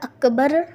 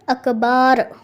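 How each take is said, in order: First: Both vowels are said short. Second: The second vowel is drawn out long. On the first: The speaker calls it right. "अकबर की जगह" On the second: The speaker calls it wrong. "या अकबार कहा"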